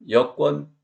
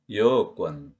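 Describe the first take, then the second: First: 여권 with short 여; short vowel. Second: 여권 with 여 lengthened, lower; long vowel. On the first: Teacher recalling the contrast, short 여권. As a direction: say the first syllable of 여권 briefly. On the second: Teacher recalling the contrast, long 여권. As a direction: stretch 여 as 여어 in 여권. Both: Shown as a demonstration. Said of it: "장음을 단음으로 소리내서".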